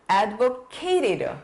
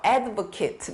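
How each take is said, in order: First: The last syllable is full, like 'kate'. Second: The last syllable is short, like 'kit'. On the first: It is used as a verb. "동사로는 advocated" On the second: It is used as a noun. "명사할 땐 이렇게 읽고"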